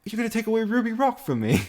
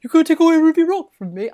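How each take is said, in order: First: High, hammed-up British whine; a hammed-up British accent, pitched way up; mock British accent. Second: High, loud put-on British accent; mock British accent. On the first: Teasing a friend, mock British accent. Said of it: "You just put on a fucking British accent". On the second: Repeating the friend's line in mock British accent. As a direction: echo her line in a hammy British accent. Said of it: "put on a fucking British accent as well".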